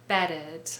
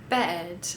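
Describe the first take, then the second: The two takes are said the same way.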